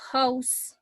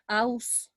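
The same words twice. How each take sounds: First: The h at the start is pronounced. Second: The h at the start is silent. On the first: The speaker calls it right. "this H has a consonant sound" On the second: The speaker calls it wrong. "it's not house"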